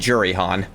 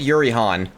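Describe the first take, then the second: First: The name begins with a J sound. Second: The name begins with a Y sound. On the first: The speaker calls it right. "but it might be" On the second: The speaker calls it wrong. "I've definitely heard it said"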